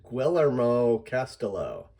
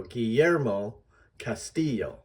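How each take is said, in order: First: "Guillermo Castelo" with English L sounds, as "gwillermo castello"; mispronounced, anglicized. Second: "Guillermo Castillo" as ghee-YER-mo cas-TEE-yo; Spanish pronunciation. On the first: Teacher shows what an unfamiliar reader might say, anglicized mispronunciation. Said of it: "That is incorrect". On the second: Teacher models the correct name for readers, Spanish pronunciation. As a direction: say "Guillermo Castillo" with y for ll, second syllables stressed. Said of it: "the emphasis is on the second syllable". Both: Shown as a demonstration.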